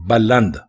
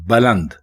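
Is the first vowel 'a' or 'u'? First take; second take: a; a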